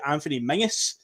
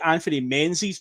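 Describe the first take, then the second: First: The surname is said as some Scots say it. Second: The surname is said the speaker's usual way. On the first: "in some circles of Scotland it would be" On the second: "I would say"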